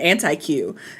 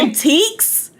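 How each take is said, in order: First: The word ends with a 'kew' sound. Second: The word ends with a 'k' sound. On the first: The speaker calls it wrong. "I'm calling them anti-Qs" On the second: The speaker calls it right. "Oh, that's how you say it"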